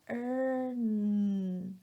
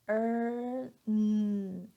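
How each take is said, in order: The two takes are said the same way.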